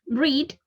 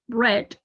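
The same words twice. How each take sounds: First: The vowel is long, like 'reed'. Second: The vowel is short, like 'red'. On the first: This is the present form. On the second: This is the past form.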